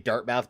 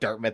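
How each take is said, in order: First: The name is said a non-British way. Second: The name is said the British way. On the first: "it's probably supposed to be Dartmouth" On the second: "as if it's like a British location"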